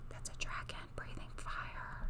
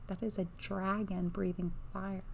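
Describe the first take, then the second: First: Softer, hushed whisper. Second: Said in the usual way. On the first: Real, not acted. Reader pointing out the dragon to viewers, whispered. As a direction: whisper it in awe, barely voiced. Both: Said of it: "when I whisper".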